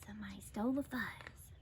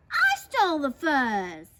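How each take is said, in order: First: Quick, secretive whisper; hushed whisper. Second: Loud, forceful proclamation; barked boast. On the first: Prairie dogs pass on theft news, whispering. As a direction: whisper it like a shocking rumour. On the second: Big Bark confesses to those below, barking. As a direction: announce the theft with a bark. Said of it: "barked a voice from above". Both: A narrator's reading.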